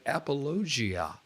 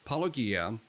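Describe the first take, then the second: First: The g is pronounced like a j. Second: The g is pronounced as a hard g. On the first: The speaker calls it wrong. "with a J sound for the G" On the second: The speaker calls it right. "But it's apologia"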